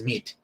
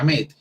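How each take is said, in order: First: "meet" said with a long EE vowel; pronunciation of meet. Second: "met" said with an E vowel; pronunciation of met. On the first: Teacher contrasting it with met, pronounced with EE. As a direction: say "meet" with an EE sound, not E. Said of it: "y no, es meet". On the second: Teacher showing students how met sounds, pronounced with E. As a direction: say "met" as it is spelt, with E. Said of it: "se pronuncia met". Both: Shown as a demonstration.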